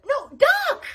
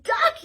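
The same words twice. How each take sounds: First: High, loud repeated warning; urgent yell. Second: High loud yell. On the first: Wanda yells the warning again, higher and louder. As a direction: yell it harder. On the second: Wanda yells a warning, high and loud. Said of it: "yelled Wanda". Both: Acted.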